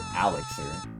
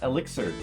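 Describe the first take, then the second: First: The word begins with an 'al' sound. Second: The word begins with an 'eh' sound. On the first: The speaker calls it wrong. "With an Al in it" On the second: The speaker calls it right. "I'm pronouncing uh, elixir correctly"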